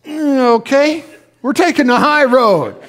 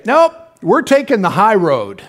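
First: High, loud imitation of a spouse giving in; mock grudging agreement. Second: Slow, decided quote of a spouse; firm refusal. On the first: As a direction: give in with a high, drawn-in "mm, okay". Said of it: "the other one will go". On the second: Retold or imitated. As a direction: say it as a settled decision, slowly. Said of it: "we'll just say".

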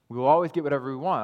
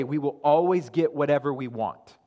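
First: Fast scornful echo; quick mocking repeat. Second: Said in the usual way. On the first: Shown as a demonstration. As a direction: rattle off fast, mocking the false teaching. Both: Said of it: "I'm not making that up".

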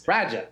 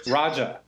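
First: "Raja" as Roger said in a Boston accent. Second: Said in the usual way. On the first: Shown as a demonstration. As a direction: say "Raja" the Massachusetts way, no final r. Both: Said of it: "if you say Roger with a Massachusetts accent".

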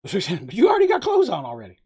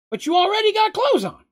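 First: Quoting through a laugh; laughing as he recalls Moogs' line; laughing retell. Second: Much higher, loud and puzzled; dim confused character. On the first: Real, not acted. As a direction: repeat the line while laughing. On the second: Acted. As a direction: blurt it out like a simple-minded oaf. Moogs confused, voiced high.

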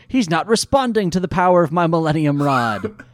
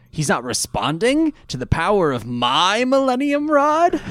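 First: Said in the usual way. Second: The whole line climbs in pitch and volume to an incredulous rising "Rod?"; specific villain emphasis. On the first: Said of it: "Or actually, no, pardon me". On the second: Retold or imitated. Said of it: "with a very specific emphasis".

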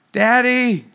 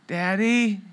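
First: Put-on a higher, louder child's call, more insistent now; daughter calling again. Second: Put-on soft, sleepy little call of a child from down the hall; daughter calling softly. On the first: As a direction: call out for daddy again, a bit more urgently. Daughter calls again, night. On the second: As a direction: call his name quietly, like a half-asleep girl. Daughter calling from her room.

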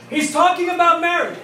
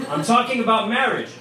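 First: High-pitched yell to another room; hollered relay. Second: Said in the usual way. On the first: Retold or imitated. Husband on the phone relaying news to his wife, high holler. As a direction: pass it on at a comic holler.

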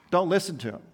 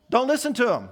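First: Said in the usual way. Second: "don't listen to him" said higher and louder, punched; emphatic command. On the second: Retold or imitated. Paul ordering believers to ignore angels, "don't listen to him" hit hard. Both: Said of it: "he says it so emphatically".

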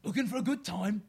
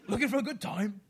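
First: Louder, higher Cockney come-on; a cheeky Cockney proposition; hammed-up Cockney accent. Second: Louder, higher Cockney come-on; a cheeky Cockney proposition, pushed harder; hammed-up Cockney accent. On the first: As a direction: purr it like a Cockney chancer. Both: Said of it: "do it in a Cockney accent".

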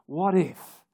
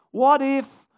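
First: Said in the usual way. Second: Urgent. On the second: Acted. Listing fears, repeating what if.

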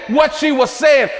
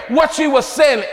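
No difference in how they are said.

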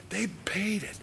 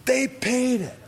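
First: "They paid it" whispered, pitched high, falling. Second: "They paid it" jumps up high and louder, falling; high loud repeat. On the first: Priests to each other over blood money, whispered. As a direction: breathe it out as a secret. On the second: Priests to each other over blood money, high loud cry. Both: Acted.

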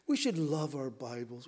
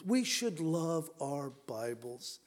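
First: Said in the usual way. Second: Slow, each word weighed; slow it down and lean on it; slow emphatic. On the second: Shown as a demonstration. Preacher repeats to congregation, slow and emphatic. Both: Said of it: "repeated slower".

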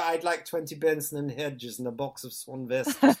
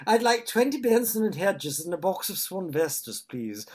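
First: Said in the usual way. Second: "I'd like twenty Benson and Hedges" in a higher, louder mock-posh RP voice; put-on posh accent. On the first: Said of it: "It just seemed to work". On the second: Friend ordering cigarettes in a put-on posh RP accent. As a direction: order as if you'd been taught RP. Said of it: "tried it on with this".

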